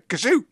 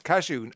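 First: The word sounds like a sneeze. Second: The word does not sound like a sneeze. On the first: The speaker calls it wrong. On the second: The speaker calls it right.

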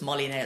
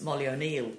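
First: The surname is shortened to sound like Nail. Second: The surname is said fully as O-Neill. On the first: This is how locals say the name. "in Ireland they sort of make their own pronunciation on it" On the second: This is the name as properly written. "her maiden name was Molly O'Neill"

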